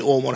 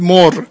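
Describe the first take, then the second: First: اومر with a long plain o and no glottal stop; the wrong way: say اومر with a smooth o; اومر, the form not to use. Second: مر as one short loud syllable; مر, the right shortened form; hamza dropped. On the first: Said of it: "نگید". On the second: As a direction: cut it down to مر. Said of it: "همزه رو بردارید بگید مر". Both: Shown as a demonstration.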